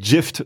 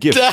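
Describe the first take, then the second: First: The word begins with a soft J sound. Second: The word begins with a hard G sound. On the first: The speaker calls it wrong. "du sagst auch nicht Gift" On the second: The speaker calls it right. "sondern Gift"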